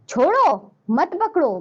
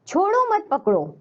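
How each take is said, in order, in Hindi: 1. शब्द chhodo के बाद विराम है। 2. यह बिना किसी विराम के सीधे एक साथ कहा जाता है। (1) "छोड़ देना है, हमें पकड़ना नहीं है" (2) "विराम चिन्ह नहीं लगा तो हमें नहीं पता छोड़ना है या पकड़ना है"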